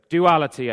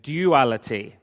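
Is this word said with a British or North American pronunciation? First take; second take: North American; British. First: The word has a North American pronunciation. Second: The word has a British pronunciation. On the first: "is what we say here in North America" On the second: "as I used to say when I lived in England"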